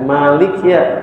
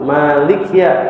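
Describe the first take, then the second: No difference in how they are said.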